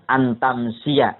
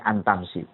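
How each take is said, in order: First: The word ends with an extra final 'a' vowel. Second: The word ends without the final 'a' vowel. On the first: This is the form the grammar requires. "Antamsia harusnya" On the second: The vowel is dropped to fit the poem's metre. "karena syair antamsia maka dibacanya antamsi"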